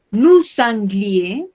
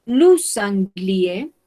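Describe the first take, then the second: No difference in how they are said.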